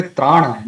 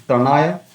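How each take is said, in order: First: "tranaya" with the first a held long, traa-; careful "tranaya", long aa after tr; correct long vowel. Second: "tranaya" with a short, quick first a; mispronounced "tranaya", tra- kept short; wrong short vowel. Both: Shown as a demonstration. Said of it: "not tranaya".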